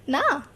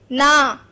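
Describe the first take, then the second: First: "ना" said gently, at normal level, with affection; loving no. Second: "ना" snapped out much louder, in anger; angry no. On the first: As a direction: soften "ना" as if refusing someone you love. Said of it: "प्यार से बोल रहे थे तो कैसे बोल रहे थे". (प्यार से धीमा "ना") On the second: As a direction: throw "ना" out like an angry refusal. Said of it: "जो गुस्सा में कैसे बात करते हैं". (गुस्से में ज़ोर से "ना") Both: Shown as a demonstration.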